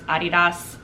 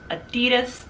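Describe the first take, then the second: First: It is pronounced like Adi plus Das. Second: It is pronounced the usual American way. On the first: It follows the founder's name. "it's named after him, Adi Das, Adi Dassler. So it's Adidas" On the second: It is the local American version. "America, however, has decided to make it its own and says Adidas instead"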